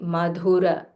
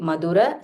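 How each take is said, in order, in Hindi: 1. बीच का व्यंजन महाप्राण बोला जाता है। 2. बीच का व्यंजन अल्पप्राण बोला जाता है। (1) "this dha is Mahaprana" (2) "Don't say Madhura"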